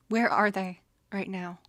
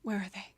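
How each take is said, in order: First: Louder, demanding where they are; angry demand. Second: Said in the usual way. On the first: Acted. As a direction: snap the question out, furious. Anger at the offenders rising.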